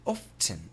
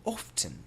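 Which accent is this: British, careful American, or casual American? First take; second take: British; British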